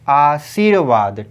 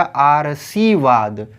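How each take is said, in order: First: आशीर्वाद drawn out very slowly; correct word slowly. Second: आरसीवाद said slowly, र before स; wrong reading shown. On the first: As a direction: stretch आशीर्वाद syllable by syllable. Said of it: "तो ये हो जाएगा". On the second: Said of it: "तो ये हो जाएगा आरसीवाद". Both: Shown as a demonstration.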